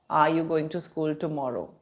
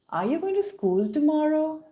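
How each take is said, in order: First: The voice does not rise at the end. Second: The voice rises at the end. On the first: The speaker calls it wrong. "No, that's not fun. That's not how native English speakers speak" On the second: The speaker calls it right. "Did you notice how the tomorrow becomes? ... tend to go up in intonation"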